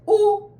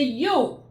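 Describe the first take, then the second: First: The vowel is a plain oo sound. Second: The vowel starts with a y glide. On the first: The speaker calls it right. "I said u" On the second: The speaker calls it wrong. "I didn't say you"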